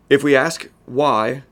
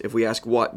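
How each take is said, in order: First: If we ask why, slow, loud and drawn out; slowed and louder, why stretched; slow emphasis on why. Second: Said in the usual way. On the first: Shown as a demonstration. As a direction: lean hard on the question why.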